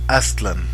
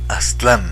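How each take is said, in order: First: The stress is on the first syllable. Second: The stress is on the last syllable. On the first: The speaker calls it right. "todas las palabras nahuas son graves, no agudas" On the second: The speaker calls it wrong. "no Aztlán"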